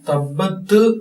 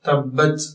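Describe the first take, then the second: First: The final t is doubled with an extra release. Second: The final t is short and ends cleanly. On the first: The speaker calls it wrong. "തബ്ബത്ത് എന്ന് പറയേണ്ടതില്ല" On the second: The speaker calls it right. "തബ്ബത് എന്ന രൂപത്തിലാണ് ഉച്ചരിക്കേണ്ടത്"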